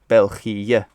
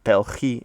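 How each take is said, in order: First: The final vowels are split by a short dip. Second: The final vowels run together without a break. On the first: The speaker calls it right. "there's that little dip in it" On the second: The speaker calls it wrong. "it's not Belgie"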